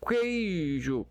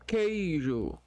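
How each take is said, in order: The two takes are said the same way.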